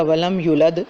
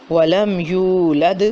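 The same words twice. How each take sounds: First: ولم یولد rushed, the long vowel clipped short; rushed wrong reading. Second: ولم یولد slow, drawn-out Quranic recitation; correct recitation. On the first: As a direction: gabble ولم یولد quickly without lengthening. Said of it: "جلدی سے پڑھ دیا". (ولم یولد جلدی میں غلط پڑھیں) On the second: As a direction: recite ولم یولد slowly with full vowels. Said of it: "اس کو پڑھ دیا ولم یولد". (ولم یولد تجوید کے ساتھ آہستہ پڑھیں) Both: Shown as a demonstration.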